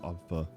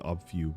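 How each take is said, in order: First: The second syllable has a reduced 'uh' vowel. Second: The second syllable has a full 'oo' vowel. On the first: The speaker calls it right. "but it's obfa" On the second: The speaker calls it wrong. "I thought it would be obfu"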